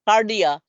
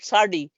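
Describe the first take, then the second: First: The word begins with a hard K sound. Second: The word begins with a soft S sound. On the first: The speaker calls it right. "the Greek word here for the cardio is K" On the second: The speaker calls it wrong. "we doesn't say sucks"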